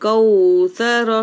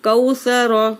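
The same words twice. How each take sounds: First: The 'au' sound is drawn out long. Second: The 'au' sound is said quickly and short. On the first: The speaker calls it wrong. "वो बिल्कुल गलत है" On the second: The speaker calls it right. "लीन को जल्द पढ़ेंगे"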